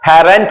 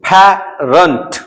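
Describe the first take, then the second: First: The last syllable has a full 'ent' vowel. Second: The last syllable has a reduced 'unt' vowel. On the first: The speaker calls it wrong. "पैरेंट नहीं" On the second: The speaker calls it right. "हम उसको अंट पढ़ते हैं"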